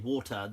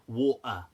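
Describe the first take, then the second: First: The middle consonant is a clear T sound. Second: The middle consonant is a glottal stop. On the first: "they won't say water" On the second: "they pronounce the T in certain things as a, a kind of glottal stop"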